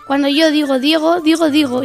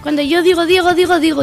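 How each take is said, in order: First: It is said at a medium speed. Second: It is said at a fast speed.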